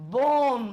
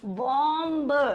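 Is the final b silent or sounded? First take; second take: silent; sounded. First: The final b sound is silent. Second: The final b sound is pronounced. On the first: The speaker calls it right. "तो ये भी silent होगा" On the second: The speaker calls it wrong. "वैसे मैंने गलत बोला है, ऐसे नहीं बोलते"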